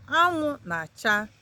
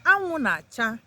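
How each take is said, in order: First: Anwụ na-acha said slowly, each syllable clear; slow it down so learners catch Anwụ na-acha; patient slower demo of Anwụ na-acha; slow teaching repeat. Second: Said in the usual way. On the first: Shown as a demonstration. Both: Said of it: "That means the sun is shining".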